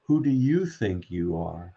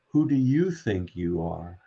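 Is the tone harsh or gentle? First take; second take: gentle; gentle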